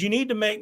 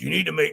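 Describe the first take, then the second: First: It is said in the speaker's ordinary voice. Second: It is said in an imitated, put-on voice.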